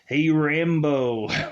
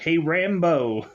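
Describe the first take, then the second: First: It is said in a much deeper voice. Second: It is said in the speaker's normal voice.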